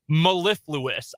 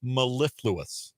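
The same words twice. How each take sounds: First: "Mellifluous" repeated slowly, syllable by syllable; sounding out words. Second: "Mellifluous" said slowly, syllable by syllable; sounding out words. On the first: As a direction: echo "Mellifluous" slowly and carefully. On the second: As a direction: spell out "Mellifluous" slowly with a falling end. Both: Shown as a demonstration. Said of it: "What was it? Mellifluous?".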